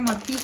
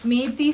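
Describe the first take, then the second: First: The first vowel is a short 'a'. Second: The first vowel is a long 'e'. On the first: "இதில் மத்தி எழுதியிருக்கும்" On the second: "இன்னொரு இடத்துல ஈ போட்டுருந்துச்சு, அதில் மேத்தின்னு சொல்லிட்டு இருந்தோம்"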